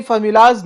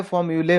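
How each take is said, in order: First: फॉर्मूलाज said with a final z sound, as the wrong form; फॉर्मूलाज pronounced formu-laaz, flagged as incorrect; wrong plural form. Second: फॉर्मूले said ending in le, as the right form; फॉर्मूले pronounced formu-lay, shown as correct; correct plural form. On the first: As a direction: say फॉर्मूलाज, ending in laz, as the mistake. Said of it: "देखिए फॉर्मूलाज नहीं होता है". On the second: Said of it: "फॉर्मूले होता है". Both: Shown as a demonstration.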